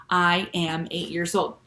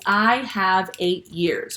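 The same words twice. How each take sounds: First: Said in the usual way. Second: Drawn out, each word weighed; slow literal version. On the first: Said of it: "So that's how we say". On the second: Shown as a demonstration. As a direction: spell out the odd literal phrasing slowly. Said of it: "it would sound a little funny".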